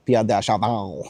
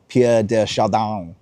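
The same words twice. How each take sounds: First: French accent. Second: Said in the usual way. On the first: Shown as a demonstration. Host trying out the French pronunciation of "Pierre de Chardin" in a French accent. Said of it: "I think that's how you say it with a French accent". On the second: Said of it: "how you say it with a French accent".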